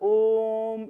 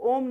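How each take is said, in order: First: The vowel is drawn out for a long time. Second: The vowel is short and quick. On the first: The speaker calls it right. "ओम इस तरह बोला जाता है" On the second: The speaker calls it wrong. "ओम को ओम नहीं बोलकर"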